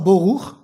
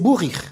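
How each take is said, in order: First: The word is said with vowels o and u. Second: The word is said with vowels u and i. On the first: "c'est pas boruch" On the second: "ils prononcent en plus le vav shuruk i"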